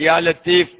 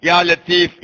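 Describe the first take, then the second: No difference in how they are said.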